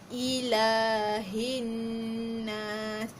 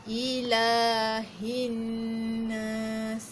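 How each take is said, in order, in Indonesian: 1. Vokal setelah 'l' pertama dibaca panjang. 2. Vokal setelah 'l' pertama dibaca panjang.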